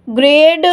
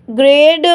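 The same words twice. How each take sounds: The two takes are said the same way.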